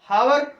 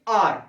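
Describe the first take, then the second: First: The word begins with an h sound. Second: The word begins directly with a vowel. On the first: The speaker calls it wrong. "जिनको थोड़ा कम पता है तो वो लोग पढ़ते हैं हावर" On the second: The speaker calls it right. "इसको बोलते हैं लेकिन आर"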